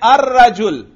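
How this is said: The article is pronounced 'ar' before rajul. This is the common Arabic form. "आप कहते हैं अर रजुल"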